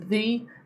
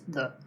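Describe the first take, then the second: First: The word has a full vowel. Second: The word has a reduced schwa vowel. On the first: "you can pronounce the as the" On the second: "normally in connected speech it's the"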